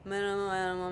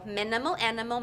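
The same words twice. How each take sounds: First: The words are said with little mouth movement. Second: The words are said with big, exaggerated mouth movement. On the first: The speaker calls it wrong. "it's not going to work" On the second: The speaker calls it right. "over enunciate your words"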